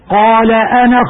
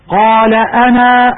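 First: The final vowel of ana is short, run on. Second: The final vowel of ana is long, at a stop. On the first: The reading continues without stopping. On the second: The reader stops on this word.

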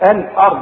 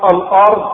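First: The opening glottal stop is thin and light. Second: The opening glottal stop is heavy and thick. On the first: The speaker calls it right. "لازم الارض دي رق الهمزه بتاعت الارض" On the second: The speaker calls it wrong. "مش الارض"

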